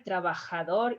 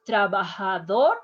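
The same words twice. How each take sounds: First: Spanish throat J in trabajador; "trabajador" with a firm scraped J; stronger J. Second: "trabajador" with the J softened to H. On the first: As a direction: say "trabajador" with a raspier "kh". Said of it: "pronounce a little bit stronger". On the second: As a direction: say "trabajador" with a light H. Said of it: "more like H". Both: Shown as a demonstration.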